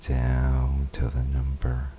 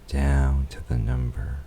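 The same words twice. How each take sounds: The two takes are said the same way.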